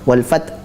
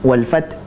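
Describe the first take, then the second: The two takes are said the same way.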